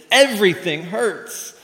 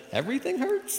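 First: Loud, high, drawn-out EVERYTHING HURTS; hammed-up pained wail; emphatic complaint. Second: High-pitched questioning echo of EVERYTHING HURTS; doctor repeating it back in disbelief; puzzled, high rising query; incredulous question. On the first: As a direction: insist on it in mock agony. Patient insists everything hurts. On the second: Acted. Doctor echoes patient in disbelief.

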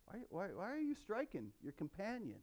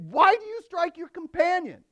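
First: Hushed, much softer, repeated whys; ironic rebuke. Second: Sharp, much higher, louder rebuke; scolding. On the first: Preacher relives Moses scolding his brother, hushed ironic rebuke. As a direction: let the irony sink in quietly. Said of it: "Can you hear the irony there?". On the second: Moses rebukes the Hebrew striking his companion, sharp high scolding. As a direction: scold him like a stern judge. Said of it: "scolded the first one". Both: Retold or imitated.

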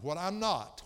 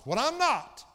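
First: Said in the usual way. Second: Loud, high burst on "what I'm not"; sudden full-force preaching cry; emphatic shout. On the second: Real, not acted. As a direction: shout the repeat from the pulpit.

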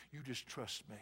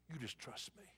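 First: Low, soft and gentle; God comforting the hurting, soft; soft reassurance. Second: Much softer, hushed repeat; God's echo, fading to a hush; near whisper. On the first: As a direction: comfort them quietly. God repeats tenderly. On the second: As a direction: let it fall almost to a whisper. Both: Acted.

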